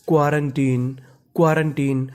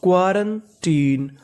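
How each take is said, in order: First: Said in the usual way. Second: Slow, drawn-out quarantine syllable by syllable; slow pronunciation model; slow demo word. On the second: Shown as a demonstration. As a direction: stretch out quarantine as kwa-ran-teen. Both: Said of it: "तो पूरी meaning मिला के पढ़ते हैं".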